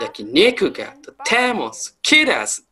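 It is said with an English-like accent.

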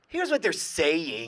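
It is said in a cocky, arrogant tone.

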